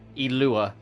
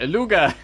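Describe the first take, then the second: First: The name is said without a G sound. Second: The name is said with a G sound. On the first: The speaker calls it right. "You don't pronounce the G" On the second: The speaker calls it wrong. "I've been calling him Aluga"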